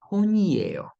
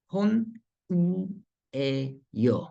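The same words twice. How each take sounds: First: "Ponyeyo" run together fast as one word, pitched up; faster, run together. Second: Slow split take. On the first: Teacher shows students "Ponyeyo" said faster as one word. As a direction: blend "Ponyeyo" quickly without a break. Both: Shown as a demonstration.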